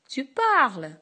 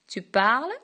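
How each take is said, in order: First: It is said with a sharp, commanding tune. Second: It is said with a rising question tune. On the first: It orders the listener to speak. "impérative" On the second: It asks whether the listener is speaking.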